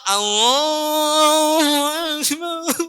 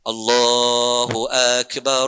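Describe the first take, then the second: First: It is shouted loudly, with a nasal voice. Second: It is said calmly, without shouting.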